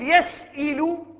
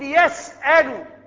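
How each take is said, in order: First: The vowel on the hamza is not 'a'. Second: The vowel on the hamza is 'a'. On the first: The speaker calls it wrong. "لا نقول يسئل ولا يسؤل" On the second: The speaker calls it right. "نقول يسأل"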